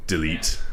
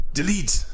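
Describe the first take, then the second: First: Said in the usual way. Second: Higher punchy call of Delete!; hammed-up announcer yell; shouted command. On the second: Shown as a demonstration. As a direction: bark it out like a catchphrase. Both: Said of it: "practising a bit".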